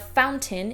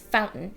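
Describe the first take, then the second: First: It has a clear T in the middle. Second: It has a glottal stop in the middle. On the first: "in British English" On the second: "in American English"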